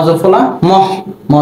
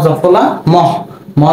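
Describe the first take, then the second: No difference in how they are said.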